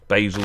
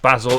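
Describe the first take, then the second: First: It is said the American way. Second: It is said the speaker's home-country way.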